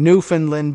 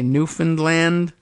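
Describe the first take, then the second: First: The final syllable 'land' is not stressed. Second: The final syllable 'land' is stressed. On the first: The speaker calls it wrong. "I was pronouncing the the territory incorrectly. I had been saying" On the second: The speaker calls it right. "a little more uh, emphasis on the A"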